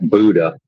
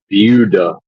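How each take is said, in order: First: The name is said like the word Buddha. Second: The name is said the local way. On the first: This is how an outsider might say it. The speaker calls it wrong. "not Buddha" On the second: This is how the locals say it. The speaker calls it right. "they pronounce it Buda"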